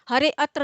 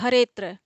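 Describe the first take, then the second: First: The 'a' of 'atra' is pronounced separately. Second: The 'a' of 'atra' is dropped entirely. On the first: The speaker calls it wrong. "हरे अत्र नहीं कहेंगे, हरे अत्र कहेंगे तो भाव बदल जाएगा" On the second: The speaker calls it right. "तो हरेत्र इसको पढ़ेंगे"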